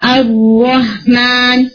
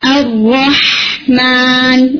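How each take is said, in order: First: The h sound is cut short and weak. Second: The h sound is held longer and strong. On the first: The speaker calls it wrong. "جلدی ختم کریں گے تبھی وہ پرامیننٹ نہیں ہوگا" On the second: The speaker calls it right. "اس کو پرامیننٹ کریں"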